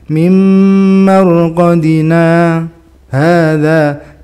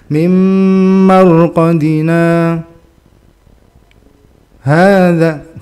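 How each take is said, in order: First: There is a very short break before hadza. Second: There is a long break before hadza. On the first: The speaker calls it right. "segitu doang" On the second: The speaker calls it wrong. "kelamaan itu"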